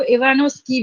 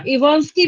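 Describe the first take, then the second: First: इवानोस्की, with an extra "o" after न; alternate pronunciation. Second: इवांस्की, said with no vowel between न and स; alternate pronunciation. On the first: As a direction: say इवानोस्की in four syllables, i-vaa-nos-ki. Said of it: "कई लोग इनको इवानोस्की भी बोलते हैं". (इवानोस्की, "नो" के साथ उच्चारण) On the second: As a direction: say इवांस्की in three syllables, i-vaans-ki. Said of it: "कई लोग इनको ना इवांस्की भी बोलते हैं". (इवांस्की, बिना "ओ" के उच्चारण) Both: Shown as a demonstration.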